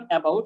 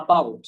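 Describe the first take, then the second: First: "about" opened with a clear e vowel; wrong pronunciation. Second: "about" opened with a short ah; schwa pronunciation. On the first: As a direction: say "about" as e-bout. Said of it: "it's not about". ("about"-এর শুরুতে এ ধ্বনি) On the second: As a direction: say "about" as a-BOUT, falling. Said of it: "আহ উচ্চারণ করবো". ("about"-এর শুরুতে ছোট আ ধ্বনি) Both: Shown as a demonstration.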